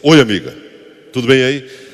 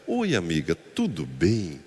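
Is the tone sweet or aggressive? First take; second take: aggressive; sweet. First: It is said in a hostile, aggressive tone. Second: It is said in a sweet, friendly tone.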